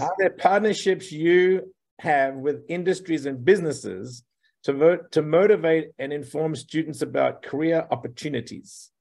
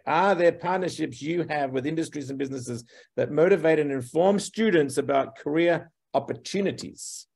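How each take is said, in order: First: The question is asked more slowly. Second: The question is asked very fast.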